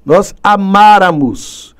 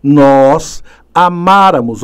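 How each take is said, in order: First: "amáramos" drawn out slowly, "má" clearly stressed. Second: "amáramos" said slowly, stress held on the open "má". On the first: Teacher repeating the correct stress of "amáramos" for the class. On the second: Teacher stressing "amáramos" so students hear the accent. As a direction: spell out "amáramos" with a heavy stressed "má". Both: Shown as a demonstration. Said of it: "Olha o acento aí".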